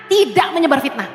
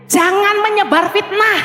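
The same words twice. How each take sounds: First: Said in the usual way. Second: "fitnah" stressed, the line said slowly; slow emphatic warning. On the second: Shown as a demonstration. Preacher warning the congregation, stressing "fitnah". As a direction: lean hard on "fitnah" and slow down.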